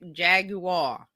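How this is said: It is said with a British pronunciation. "British says"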